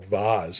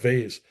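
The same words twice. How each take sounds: First: Vase is said the fancier West Coast way. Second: Vase is said the plain New Jersey way.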